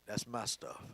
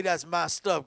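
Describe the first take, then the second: First: Low, hushed, possessive father; daddy's way. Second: Said in the usual way. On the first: Shown as a demonstration. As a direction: say it like a dad guarding his things, quietly. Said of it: "my daddy would have said it simply like this". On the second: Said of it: "God don't say".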